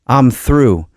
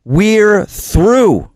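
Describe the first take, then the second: First: Said in the usual way. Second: "We're through" lifted high and held; raised answering line. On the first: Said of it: "George Floyd's actual last words". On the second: Acted. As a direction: answer back up high, with resolve. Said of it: "responses that I wrote".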